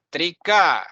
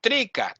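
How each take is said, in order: First: Trika stressed on the final a; end-stressed Trika; correct pronunciation. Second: Trika stressed on the first syllable; front-stressed Trika, weak ending; wrong pronunciation. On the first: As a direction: say Trika as tri-KA, ending held. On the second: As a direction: say Trika as TREE-ka. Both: Shown as a demonstration. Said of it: "Not Trika".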